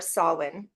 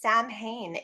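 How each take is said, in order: First: It does not sound like 'Sam Hain'. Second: It sounds like 'Sam Hain'. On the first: The speaker calls it right. "as we say in the British traditional kind of Gaelic Celtic land" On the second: The speaker calls it wrong. "pronounced Sam Hain in every single punk rock circle"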